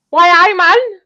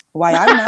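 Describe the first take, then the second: First: High, loud laughing Geordie echo; Geordie accent. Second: Loud, hammy Geordie attempt; mock Geordie, punch "man" up; Geordie accent. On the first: Pretend. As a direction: squeal the Geordie line back. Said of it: "Was that a good go?". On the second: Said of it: "can you do a Geordie accent".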